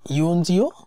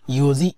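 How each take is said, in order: First: The word has an 'n' before 'ji'. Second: The word has no 'n' before 'ji'. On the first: The speaker calls it wrong. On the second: The speaker calls it right.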